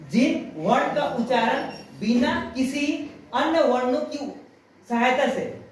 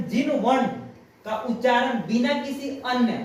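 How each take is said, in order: First: Slow it down so students catch every word; slow, careful repeat. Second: Said in the usual way. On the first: Shown as a demonstration. Teacher repeating the definition slowly for her pupils to note. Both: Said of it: "ध्यान से सुनना".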